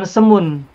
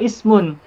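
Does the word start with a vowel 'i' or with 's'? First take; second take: s; i. First: The word begins directly with an 's' sound. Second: The word begins with an 'i' vowel. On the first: The speaker calls it wrong. "bukan semun" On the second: The speaker calls it right. "alif itu dibaca kalau sebelumnya tidak ada huruf"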